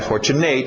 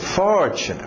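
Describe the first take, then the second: First: The stress falls on a later syllable. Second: The stress falls on the first syllable. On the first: The speaker calls it wrong. "Não é fortunate" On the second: The speaker calls it right. "Bate no for"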